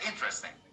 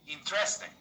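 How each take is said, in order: First: The stress falls on the first syllable. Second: The stress falls on a later syllable. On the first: The speaker calls it right. "The stress is on the first part" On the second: The speaker calls it wrong. "Most people in my country ... they say"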